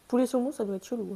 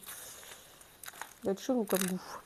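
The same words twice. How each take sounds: First: Said in the usual way. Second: Chelou stretched slow and soft, skeptical; a slow, dubious aside; slow, drawn-out doubt. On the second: Real, not acted. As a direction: drag out chelou like you can't believe it.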